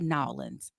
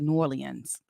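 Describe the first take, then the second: First: The name is squeezed into two short syllables. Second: The name is said with every syllable pronounced. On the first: The speaker calls it wrong. "don't say Nolans" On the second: The speaker calls it right. "They pronounce all the letters"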